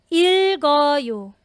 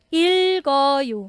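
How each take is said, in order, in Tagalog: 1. Lumilipat ang katinig para simulan ang susunod na pantig. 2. Lumilipat ang katinig para simulan ang susunod na pantig.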